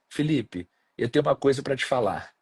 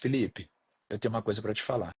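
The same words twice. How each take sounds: First: The sentence is said in a positive, upbeat tone. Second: The sentence is said in a negative, ominous tone. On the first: Good news is coming. "Parece uma coisa positiva" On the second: Bad news is coming. "Já ficou ruim"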